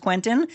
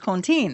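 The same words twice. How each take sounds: First: The name is said with an American pronunciation. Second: The name is said with a French pronunciation. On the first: This is the adapted form of the name. "they Americanized it" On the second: This is the original form of the name. "it really is Quentin. It's got this French connection"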